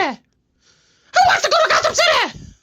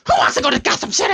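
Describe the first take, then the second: First: Manic taunt. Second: Brisk, rushed Joker question; quick taunt. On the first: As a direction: stretch it out high like a crazed Joker. Joker repeats the taunt. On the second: Joker taunts, then repeats it. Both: Acted.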